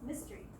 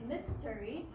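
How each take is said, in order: First: The word is said fast with a syllable dropped. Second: The word is said slowly with every syllable. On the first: "if we pronounce it fast" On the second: "If we pronounce it slowly"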